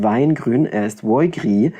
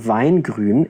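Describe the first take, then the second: First: It is spoken in a Mainz regional dialect. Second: It is spoken in standard German pronunciation.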